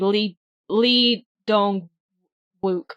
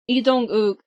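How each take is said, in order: First: The name is said with an American pronunciation. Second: The name is said with a Korean pronunciation.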